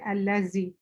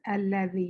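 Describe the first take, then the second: First: The middle consonant is a buzzing z sound. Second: The middle consonant is a voiced th sound. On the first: The speaker calls it wrong. "people say, may say allazi" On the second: The speaker calls it right. "You put your tongue between your teeth"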